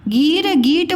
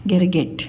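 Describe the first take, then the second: First: गीर गीट with long high ee; गलत लंबी ई. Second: गिर गिट short and lower; सही छोटी इ. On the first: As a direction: stretch both vowels in गीर गीट. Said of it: "बोलते हो कि गिर". (गीर गीट में ई खींचकर) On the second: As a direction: keep both vowels quick in गिर गिट. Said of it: "ऐसे उच्चारण करो". (गिर गिट में इ छोटी) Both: Shown as a demonstration.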